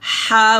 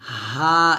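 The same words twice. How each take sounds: First: The sound is thin and narrow. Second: The sound is full and natural. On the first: The speaker calls it wrong. "হা বলবেন না, চিকন করে বলবেন না" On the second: The speaker calls it right. "এটা হচ্ছে হা"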